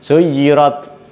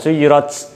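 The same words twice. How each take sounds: First: The final consonant is a clear t sound. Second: The final consonant sounds like a ch sound. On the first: The speaker calls it right. "Jadi suyirat" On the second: The speaker calls it wrong. "bukan suyirat. Kalau suyirat itu nanti jadi c"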